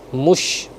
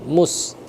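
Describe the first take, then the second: First: The word ends with a sh sound. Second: The word ends with a plain s sound. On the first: The speaker calls it right. "Mush, mush bukan mus" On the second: The speaker calls it wrong. "jangan mus"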